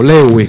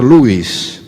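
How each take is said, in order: First: The name is said with a local Spanish pronunciation. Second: The name is said with an original English pronunciation. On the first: The speaker calls it wrong. "como pronunciamos aquí" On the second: The speaker calls it right. "en realidad habría que pronunciar"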